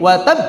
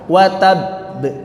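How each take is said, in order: First: The final consonant is released without holding. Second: The final consonant is held before release. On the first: The speaker calls it wrong. "Tidak begini ... Enggak begitu" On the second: The speaker calls it right.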